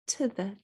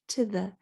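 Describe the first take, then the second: First: The vowels are reduced to a quick schwa. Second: The same.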